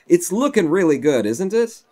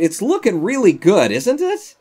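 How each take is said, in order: First: Louder, higher, upbeat admiration; pleased self-praise. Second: Loud, high, breaking into a laugh; hammed-up delight, squeaking up on the question; over-the-top self-praise. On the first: Real, not acted. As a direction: show off the work, inviting agreement. Admires the build, first take.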